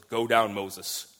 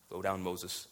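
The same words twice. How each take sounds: First: Said in the usual way. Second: Softer, lower repeat of the command; hushed, solemn repeat of the command; quiet echo. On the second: Acted. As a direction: let the echo fall away softly. God's command repeated, much quieter.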